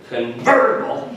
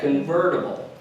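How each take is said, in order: First: The stress is hit hard and strongly. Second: The stress is light and subtle.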